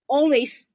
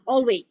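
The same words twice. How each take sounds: First: The word ends with a clear S sound. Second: The word ends without an S sound. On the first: The speaker calls it right. "is always" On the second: The speaker calls it wrong. "We always mispronounce the S, yeah, or we forget the S"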